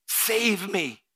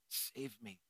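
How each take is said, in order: First: Much higher and louder plea; pleading prayer. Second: Much softer, near-breath plea; hushed prayer. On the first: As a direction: cry out to God. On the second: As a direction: whisper it to God. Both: Acted. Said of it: "Just say, "Lord, I surrender".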